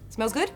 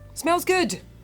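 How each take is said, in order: First: The pitch rises at the end. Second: The pitch falls at the end. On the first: "if I go up with my word at the end, it's a question" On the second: "I went down on my voice"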